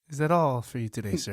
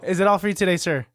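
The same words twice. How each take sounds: First: It is said slowly. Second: It is said fast.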